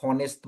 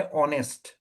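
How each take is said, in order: First: हॉनेस्ट with the h sounded, "haw-nest"; wrong pronunciation. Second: ऑनेस्ट with a silent h, opening straight on the vowel "aw"; correct pronunciation. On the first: Teacher showing students the wrong way, हॉनेस्ट with the h sounded. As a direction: say हॉनेस्ट with a clear breathy h at the start. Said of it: "अगर आप इसको गलत pronounce करेगा". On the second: Teacher giving the real sound, ऑनेस्ट with a silent h. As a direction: start ऑनेस्ट on the vowel, no h at all. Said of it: "इसका असली pronunciation जो क्या है". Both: Shown as a demonstration.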